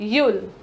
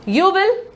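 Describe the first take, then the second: First: It is said as one short contracted syllable. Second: It is said as two full words.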